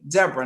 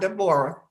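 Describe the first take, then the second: First: The name is said with two syllables. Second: The name is said with three syllables. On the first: The speaker calls it right. "D E B R A, Deborah" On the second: The speaker calls it wrong. "not Deborah"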